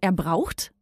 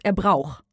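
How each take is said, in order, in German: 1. Das End-t wird deutlich gesprochen. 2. Das End-t fällt weg. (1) "Du sagst zum Beispiel nicht" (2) "Da lässt du meinen Buchstaben weg"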